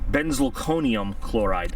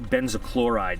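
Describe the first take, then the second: First: The first part is said in full, benzalkonium. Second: The first part is shortened to benzo. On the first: The speaker calls it right. "let's get it right" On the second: The speaker calls it wrong. "I always manage to pronounce this wrong. I always call it benzochloride"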